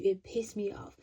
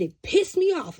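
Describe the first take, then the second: First: Said in the usual way. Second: High and loud, annoyed; loud, raised-pitch annoyance; indignant outburst. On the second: Retold or imitated. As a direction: blurt it out still irritated. Recalling being angered.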